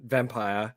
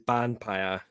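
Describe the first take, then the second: First: The word begins with a V sound. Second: The word begins with a B sound. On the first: "it is actually meant to be" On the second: "the way they pronounce it is"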